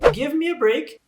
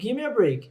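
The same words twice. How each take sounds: First: Each word is said fully and separately. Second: Give me is blended into gimme. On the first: "a expressão give me a break" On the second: "pode ser dita como"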